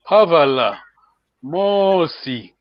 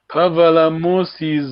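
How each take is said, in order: First: The words are said slowly with drawn-out vowels. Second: The words are said quickly with short vowels. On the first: "slowly now" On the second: "just doing too fast"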